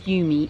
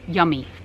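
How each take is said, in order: First: The first syllable sounds like 'you'. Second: The first syllable sounds like 'yum'. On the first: The speaker calls it wrong. "wait a minute. Nope" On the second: The speaker calls it right. "It's pronounced yummy"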